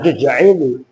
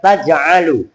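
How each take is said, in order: First: The word begins with 'tu' and has an 'i' vowel. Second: The word begins with 'ta' and has 'a' vowels. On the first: The speaker calls it wrong. "Jangan tuj'ilu" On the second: The speaker calls it right. "itu membacanya taj'alu"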